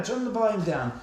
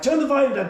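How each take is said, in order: First: Said in the usual way. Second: Urgent shout. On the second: Retold or imitated. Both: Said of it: "And I'm like".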